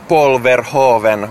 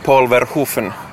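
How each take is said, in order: First: The ending has a voiced v sound. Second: The ending has an unvoiced f sound. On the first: The speaker calls it wrong. "ei ole Polverhoven" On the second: The speaker calls it right. "vaan on Polverhufen"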